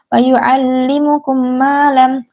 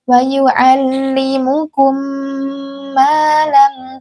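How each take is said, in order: First: The phrase is said quickly without holding the m. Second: The phrase is said slowly with a held m. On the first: The speaker calls it wrong. "jangan cepat-cepat" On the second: The speaker calls it right. "tapi pelan-pelan"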